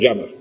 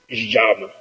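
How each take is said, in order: First: It begins with a soft y-like sound. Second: It begins with a buzzing or hissing sh-like sound. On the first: This is how it is said in Madrid. "para lo que en Madrid decimos llama" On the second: This is how it is said in Buenos Aires. "allí los porteños entonces dicen llama"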